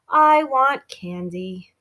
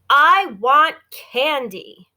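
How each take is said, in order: First: It is said in a gentle tone. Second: It is said in an angry tone. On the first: The speaker calls it wrong. "I would not read the words in a gentle way" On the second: The speaker calls it right. "this is another angry one"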